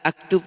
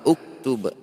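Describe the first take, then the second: First: The word begins with the vowel a. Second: The word begins with the vowel u. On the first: The speaker calls it wrong. "aktub tidak boleh" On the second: The speaker calls it right. "huruf ketiganya domah maka uktub"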